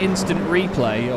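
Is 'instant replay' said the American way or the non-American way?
non-American. It is said the usual non-American way. "instead of saying instant replay"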